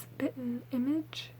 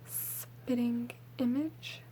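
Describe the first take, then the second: First: The first word ends in a short -in sound. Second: The first word ends in a full -ing sound. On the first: This is the speaker's everyday Southern way. "if I were to read over that word fast, um, it would probably come out like spittin' image" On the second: This is the proper, careful way. "It's technically spitting image"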